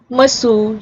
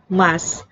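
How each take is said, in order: First: The final u vowel is pronounced. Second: The final u vowel is dropped.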